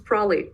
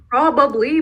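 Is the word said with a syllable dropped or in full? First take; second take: dropped; full. First: One syllable is dropped, making it shorter. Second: All three syllables are said in full.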